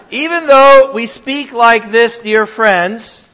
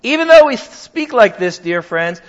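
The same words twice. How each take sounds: First: Reads the verse with a laugh, louder and slower; laughing while reading. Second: Said in the usual way. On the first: Real, not acted. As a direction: chuckle through the scripture line. Reading scripture, laughing warmly.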